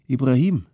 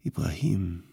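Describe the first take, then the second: First: Raised, louder call of a name; calling for attention. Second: Subdued, sorrowful call of a name; sad, overwhelmed. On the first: Man calls his friend who keeps playing, calling for attention. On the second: Man sees his friend has lost his mind, sad. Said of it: "traurig, vom Unglück überwältigt". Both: A narrator's reading.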